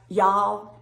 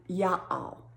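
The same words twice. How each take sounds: First: "y'all" as one syllable; dialect "y'all". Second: "ya all" in two slow parts; dialect "ya all". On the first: Listing the hollers' words, one-syllable "y'all". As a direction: say "y'all" firmly as a single word. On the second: Listing the hollers' words, slow two-part "ya all". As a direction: say "ya all" slowly, split in two. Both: Shown as a demonstration. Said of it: "another holler would say y'all".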